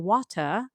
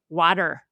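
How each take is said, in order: First: The middle consonant is a clear, full T. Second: The middle consonant is a quick D-like flap. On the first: "keep it a T" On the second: "a flap"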